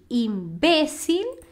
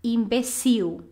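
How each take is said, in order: First: "Imbécil" stressed on BE, drawn out; "Imbécil", middle syllable strong, l at the end; Spanish stress. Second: "imbecil" slowly, weight on the last syllable; "imbecil" ending in a stressed ee-oo; Portuguese stress. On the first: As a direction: say "Imbécil" as im-BE-sil, slowly. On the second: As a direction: say "imbecil" as im-be-SIW. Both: Shown as a demonstration. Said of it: "a sílaba tônica é diferente".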